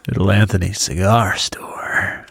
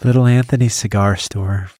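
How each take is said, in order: First: It is said in a sultry voice. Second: It is said in a sweet voice.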